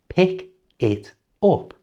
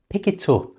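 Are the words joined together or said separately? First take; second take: separately; joined. First: The words are said separately, without linking. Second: The words run together into one linked phrase. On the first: This is how a learner might say it. "at the moment you might say" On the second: This is how a native speaker says it. "at normal speed"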